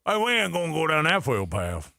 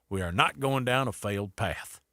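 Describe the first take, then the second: First: Put-on thicker Louisiana accent. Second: Put-on quoting the Louisiana governor in a mild Louisiana accent. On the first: Host redoing the governor's quote, thicker Louisiana accent. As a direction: lean harder into the Louisiana accent. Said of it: "More like that". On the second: Radio host quoting the Louisiana governor, light Louisiana accent. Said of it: "I said it with that accent".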